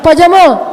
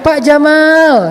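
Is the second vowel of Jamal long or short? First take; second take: short; long. First: The second vowel of Jamal is short. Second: The second vowel of Jamal is long. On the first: The name means camel. The speaker calls it wrong. "Jangan Pak Jamal, Pak Onta" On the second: The name means handsome or cool. The speaker calls it right. "Kok panjang sih?"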